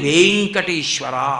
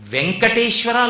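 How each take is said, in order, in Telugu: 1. మొదటి అచ్చు దీర్ఘంగా పలుకుతారు. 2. మొదటి అచ్చు హ్రస్వంగా పలుకుతారు. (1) "అక్కడ వేకి దీర్ఘం ఉంటే మీరు వేం అనాలి" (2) "లేదు"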